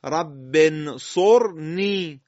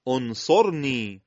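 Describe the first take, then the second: First: Very slow, loud "رب انصرنی" linked as rabbe-nsorni; joined recitation. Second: "انصرنی" begun alone as onsorni, slow; hamza with damma. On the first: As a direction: run "رب" into the n of "انصرنی". (تلاوت کشیده، وصل «رب» به «انصرنی») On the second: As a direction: start "انصرنی" on a rounded o/u. (شروع «انصرنی» با همزهٔ مضموم) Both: Shown as a demonstration.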